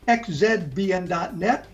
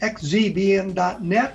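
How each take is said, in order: First: The letter Z is said the Canadian way. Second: The letter Z is said the American way.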